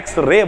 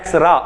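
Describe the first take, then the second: First: The word ends with an 'ay' vowel. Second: The word ends with an 'ah' vowel. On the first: The speaker calls it right. "या फिर एक्स रे बोलिए" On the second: The speaker calls it wrong. "बहुत सारे लोग कहते हैं एक्सरा, एक्सरा नहीं बोलते हैं"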